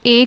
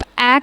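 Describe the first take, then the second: First: "ए" said as long "ay", as in pain; long A sound. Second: "ए" said as short open "ae", as in cat; short A sound. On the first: Teacher shows learners the sound to use, long "ay" for "ए". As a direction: say "ए" with the long "ay" vowel. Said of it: "आप ए का sound निकालेंगे". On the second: Teacher shows learners the sound to avoid, short "ae" for "ए". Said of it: "तो आप ए का sound नहीं निकालेंगे". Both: Shown as a demonstration.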